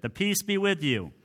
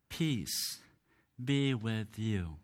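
First: Higher-pitched, automatic passing of the peace; rote church greeting. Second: Slow, soft and low, with a pause after "Peace"; solemn blessing. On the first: Shown as a demonstration. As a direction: toss it out like a habitual liturgical greeting. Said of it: "just becomes something that just rolls off". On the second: Retold or imitated. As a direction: give it gently, as a heartfelt blessing. Jesus's blessing, quoted with weight.

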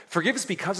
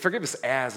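First: "Forgive us because" said higher, leaning on "because"; praying as if daring God to match you; challenging tone. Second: Said in the usual way. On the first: Shown as a demonstration. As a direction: throw it at God as a dare. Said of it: "almost a challenge to God". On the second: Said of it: "do it in the same way".

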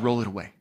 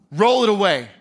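First: Low, soft, firm order; quiet command. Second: Commanding order. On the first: Jesus repeating the order to Martha, low and soft. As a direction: drop to a hush and insist. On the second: Jesus ordering the stone rolled away, firm. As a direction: order them to move the stone. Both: Acted.

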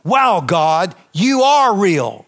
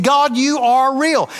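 First: Awed revelation. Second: Exclaimed revelation. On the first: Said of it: "this came out of my spirit". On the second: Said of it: "that's why I said". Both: Retold or imitated.

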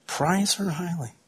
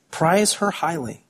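First: "Prize her highly" said softer and slow, almost to oneself; tender softer echo of "Prize her highly"; hushed repeat. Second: Said in the usual way. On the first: Shown as a demonstration. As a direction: let "Prize her highly" fall to a near murmur. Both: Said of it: "repeated softer".

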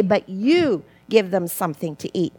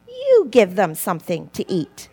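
First: "you" pressed, the rest plainer; stress on you. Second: "You" leaned on first, the rest plainer; stress on you. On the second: Preacher quoting Jesus to the disciples, weight on "You". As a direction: make "You" carry the command. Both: Shown as a demonstration. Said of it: "with the emphasis on the word you".

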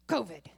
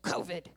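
First: Louder mock cough hiding the word covid. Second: Mock cough hiding the word covid. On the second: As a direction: cough out "covid" loud and low. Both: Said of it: "under his breath".

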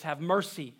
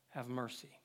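First: "Have mercy" pleaded with weight on "mercy", falling; emphatic plea. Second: "have mercy" dropped much lower and softer, almost breathed; fading plea. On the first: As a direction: lean into "mercy" like a heartfelt cry. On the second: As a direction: let the last plea die away to a hush. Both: Acted. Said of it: "Look at the repetitiveness with the emphasis".

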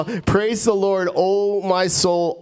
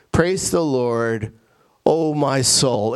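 First: Slow, higher-pitched exhortation to oneself; urging own soul. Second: Slow, deliberate quotation of a psalm; measured verse reading. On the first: Acted. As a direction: rouse your soul with drawn-out, lifted words. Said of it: "like you're talking to your soul". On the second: Shown as a demonstration. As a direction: read the verse out slowly and solemnly. Reads the psalm verse first.

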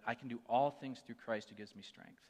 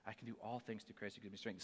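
First: Said in the usual way. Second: Softer, inward recital of the verse; reciting in his head. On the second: Retold or imitated. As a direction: say it to yourself like a silent prayer. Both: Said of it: "I had to say that verse over and over in my head".

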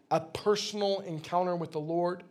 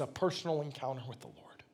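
First: Said in the usual way. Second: Dropped low and softer into a whisper; preacher whispering the key phrase. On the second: Real, not acted. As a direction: hush it to draw them in.

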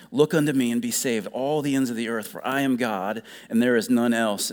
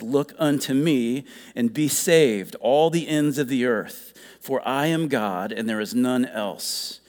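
First: Quicker verse repeat. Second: Measured, deliberate scripture reading. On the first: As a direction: run through the verse more quickly. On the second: First reading of the verse. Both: A narrator's reading.

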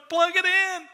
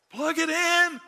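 First: Even higher, louder, heaven crying out together; heaven calling out. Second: Higher, emphatic order to the congregation; urgent command. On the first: Retold or imitated. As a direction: make it sound like all of heaven shouting. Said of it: "All of heaven's going". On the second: Acted. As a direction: snap it out as a command to the listeners.

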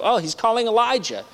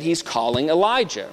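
First: Higher, scoffing "Oh, he's calling Elijah"; a scornful onlooker at the cross; mocking misunderstanding. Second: Said in the usual way. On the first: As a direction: play the sneering bystander. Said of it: "they think he's referring to Elijah". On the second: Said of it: "they said".

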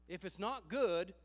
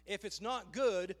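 The two takes are said the same way.

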